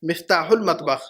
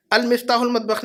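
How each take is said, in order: First: "مفتاح المطبخ" as miftahul-matbakh, starting straight on mif; correct, no first article. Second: "المفتاح المطبخ" with an added al at the front: al-miftahul-matbakh; wrong extra article. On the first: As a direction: say "مفتاح المطبخ" slower and lower, with no leading al. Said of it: "پہلے پر الف لام نہیں لگانا ہے". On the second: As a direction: begin "المفتاح المطبخ" on a clear "al". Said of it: "نہیں کہیں گے ہم". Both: Shown as a demonstration.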